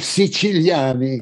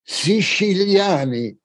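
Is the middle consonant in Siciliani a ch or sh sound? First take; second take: ch; sh. First: The middle consonant is a hard ch sound. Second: The middle consonant is a soft sh sound.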